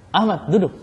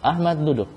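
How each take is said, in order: First: "Ahmad duduk" dengan nada naik dan lebih keras pada "duduk"; perintah tegas. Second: Said in the usual way. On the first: Shown as a demonstration. ("duduk" ditekan tinggi seperti menyuruh) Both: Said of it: "Intonasi suara".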